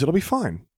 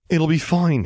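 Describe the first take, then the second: First: Said in the usual way. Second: A mock copy, higher and louder; mocking imitation. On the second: Zev mimicking Luke, mocking and higher. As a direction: parrot his friend's words sarcastically. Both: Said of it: "he says".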